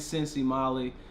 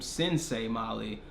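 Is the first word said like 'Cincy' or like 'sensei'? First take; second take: Cincy; sensei. First: The first word sounds like the city nickname 'Cincy'. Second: The first word sounds like the karate term 'sensei'. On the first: "they kept saying Cincy Molly" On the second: "I was pronouncing the girl's name Sensei Molly on some old karate type stuff"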